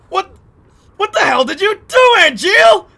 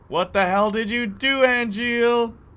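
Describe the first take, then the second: First: It sounds questioning and in disbelief. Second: It sounds casual and unbothered.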